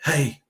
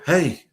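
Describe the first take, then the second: First: It is said softly. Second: It is said a little louder.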